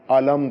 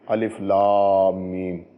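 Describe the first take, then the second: First: The letters are joined into one word. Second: Each letter name is said separately. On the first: It is an ordinary word in a verse. "इसको अलिफ लाम मीम नहीं पढ़ा" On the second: It is the letter opening of a surah. "अलिफ को अलहदा पढ़ते हैं, लाम को अलहदा पढ़ते हैं, मीम को अलहदा पढ़ते हैं"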